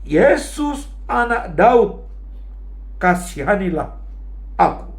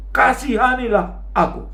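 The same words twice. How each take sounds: First: High raised cry, easing at the end; seruan kencang Bartimeus. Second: High-pitched retold plea; Bartimeus berteriak kencang. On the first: Retold or imitated. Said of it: "Bartimeus berteriak sangat kencang". (berseru kencang menirukan Bartimeus) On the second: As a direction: cry out insistently, imitating the beggar. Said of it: "dia malah berteriak lebih kencang". (seruan memohon bernada tinggi menirukan Bartimeus)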